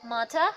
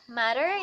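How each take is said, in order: First: It is said in a British RP accent. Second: It is said in an American accent. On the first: "then in R P it's mata" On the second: "matter in American"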